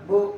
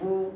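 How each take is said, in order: First: The syllable is jerked out abruptly. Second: The syllable is said smoothly and evenly. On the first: The speaker calls it wrong. "ঝটকা দেওয়া যেমন" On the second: The speaker calls it right. "আমি আবার সুন্দর করে এই হরফের উচ্চারণ করতেছি"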